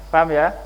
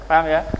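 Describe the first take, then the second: Both takes have the same delivery.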